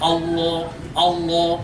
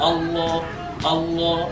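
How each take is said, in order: Both takes have the same delivery.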